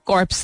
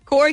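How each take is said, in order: First: The final 'ps' sounds are pronounced. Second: The final 'ps' sounds are left silent. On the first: The speaker calls it wrong. "But कॉर्प्स are dead bodies" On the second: The speaker calls it right. "कोर कहते हैं ना"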